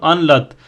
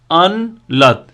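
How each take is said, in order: First: Said in the usual way. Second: "अनलत" as two beats, अन, then लत; split into syllables. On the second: Shown as a demonstration. Teacher showing two syllables, "अनलत" broken into अन and लत. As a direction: pause between अन and लत. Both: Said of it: "यानी दो syllable बन रहे हैं".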